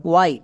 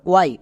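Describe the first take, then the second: No difference in how they are said.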